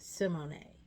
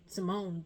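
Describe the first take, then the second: First: The name ends with a sounded final vowel. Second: The name ends without a sounded final vowel. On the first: The speaker calls it right. "there's an accent over the E at the end" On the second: The speaker calls it wrong. "I thought she was [name] the whole time"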